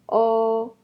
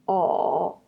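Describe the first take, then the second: First: The pitch stays high and level. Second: The pitch dips low, then rises.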